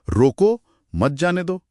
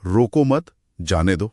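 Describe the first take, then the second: First: रोको set apart, then मत जाने दो; higher, slower reading split after रोको; pause after रोको. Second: रोको मत together, then जाने दो; रोको मत as one unit, pause, जाने दो; pause after मत. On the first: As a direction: break after रोको, keep मत जाने दो together. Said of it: "अब यहाँ कहाँ रुकना है?". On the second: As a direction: break after मत, setting जाने दो apart. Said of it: "या फिर". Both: Shown as a demonstration.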